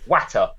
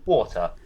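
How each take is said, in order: First: It is said in her granddad's Yorkshire accent. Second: It is said in a common standard accent.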